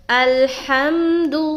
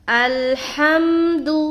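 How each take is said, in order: The two takes are said the same way.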